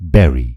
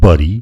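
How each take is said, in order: First: The first vowel sounds like 'beh'. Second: The first vowel sounds like 'buh'. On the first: The speaker calls it right. "यसको सही उच्चारण हो" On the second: The speaker calls it wrong. "बरी अथवा बुरी भन्नुभयो भने गलत हुन्छ"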